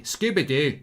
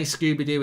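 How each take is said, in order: First: Scooby-Doo with a fronted Scottish oo, quick and falling; Scottish accent. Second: Said in the usual way. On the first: Shown as a demonstration. Viewer asks for Scooby-Doo in Scottish, he obliges in a light Scottish accent. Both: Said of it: "Say Scooby-Doo in Scottish accent".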